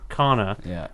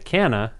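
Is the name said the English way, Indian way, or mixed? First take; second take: mixed; English. First: The name is said halfway between both pronunciations. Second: The name is said with an anglicized pronunciation. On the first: The speaker calls it right. "I'm gonna split the difference and be Khanna" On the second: The speaker calls it wrong. "I used to go by Canna, and I didn't like it"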